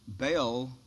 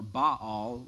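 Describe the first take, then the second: First: The name is pronounced the common English way. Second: The name is pronounced the Hebrew way.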